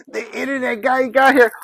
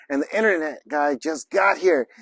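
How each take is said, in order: First: High, loud, thrilled exclamation; excited announcement. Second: Said in the usual way. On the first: Real, not acted. Vlogger celebrating the internet guy's arrival, excited. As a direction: crow it out, pitch jumping up.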